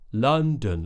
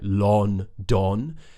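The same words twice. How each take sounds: First: The first vowel is an open 'uh' sound. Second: The first vowel sounds like a full 'o'. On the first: The speaker calls it right. "Look how my mouth is changing" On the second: The speaker calls it wrong. "when people pronounce it more how it's spelt with the O's"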